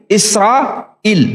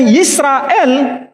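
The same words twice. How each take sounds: First: Israel slowly as "Is-ra-il", with no Y; separated last syllable "il" in Israel; Arabic form. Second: Yisrael slowly, starting on a y sound; audible Y and final "el" in Yisrael; Hebrew form. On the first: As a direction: say Israel with a bare i at the start and "il" at the end. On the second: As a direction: say Yisrael as "Yis-ra-el". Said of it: "Tadi saya contohkan". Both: Shown as a demonstration.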